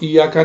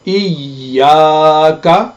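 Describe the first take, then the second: First: The long vowel is held only briefly. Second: The long vowel is pressed and lengthened. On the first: The speaker calls it wrong. "ईया का नहीं है" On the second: The speaker calls it right. "अलिफ को आपने प्रेशर देना है या टू टाइम"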